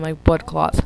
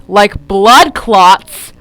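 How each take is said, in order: First: Said in the usual way. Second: Much louder, drawn-out "blood clots"; loud incredulous repeat. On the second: Real, not acted. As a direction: blurt it out slowly in disbelief. Repeats the phrase in loud disbelief.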